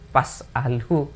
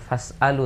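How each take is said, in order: First: The word begins with a p sound. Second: The word begins with an f sound. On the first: This is how the cleric actually recited it. The speaker calls it wrong. "tapi pas alu" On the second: This is what a trained reciter would say. The speaker calls it right. "bukan fas alu"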